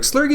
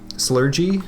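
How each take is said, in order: First: The g is pronounced as a hard g sound. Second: The g is pronounced as a soft j sound. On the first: "not what I had in mind" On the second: "like with a j sound"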